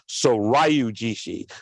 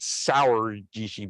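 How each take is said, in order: First: The first word sounds like 'soryu'. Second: The first word sounds like 'sour'. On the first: The speaker calls it right. "but it's Soryu Jishi" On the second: The speaker calls it wrong. "I always want to call it Sour Jishi"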